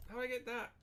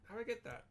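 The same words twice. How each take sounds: The two takes are said the same way.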